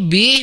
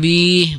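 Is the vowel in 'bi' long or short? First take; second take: short; long. First: The vowel is short. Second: The vowel is drawn out long. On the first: The speaker calls it right. "bi pendek ya" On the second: The speaker calls it wrong. "bukan bi, bukan panjang"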